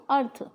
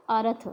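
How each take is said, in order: First: अर्थ with a half र, short and tight; correct pronunciation. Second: अर्थ with a full vowel after र, like अरथ; wrong pronunciation. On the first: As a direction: say अर्थ, र joined to थ. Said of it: "जबकि शब्द क्या है शुद्ध". (अर्थ, आधा र जोड़कर) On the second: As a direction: say अर्थ as three syllables, अ-र-थ. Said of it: "र पूरा लिख दिया तो इसका उच्चारण". (अर्थ को अरथ बोलें, र पूरा) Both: Shown as a demonstration.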